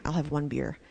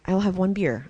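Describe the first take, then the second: First: A softer, self-persuading murmur; quiet mock rationalizing. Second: Said in the usual way. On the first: Drinking alone, talking herself into one more, softly. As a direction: sneak it past yourself in a low voice. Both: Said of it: "it was just classic".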